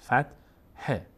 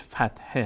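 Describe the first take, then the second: First: فتحه split slowly as "fat... he"; syllable-by-syllable demo. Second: Said in the usual way. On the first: Shown as a demonstration. Teacher showing the Arabic term, فتحه slowly split "fat... he". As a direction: break فتحه in two, very slowly, "fat", pause, "he". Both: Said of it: "اصل تعبیر عربیش فتحه هست".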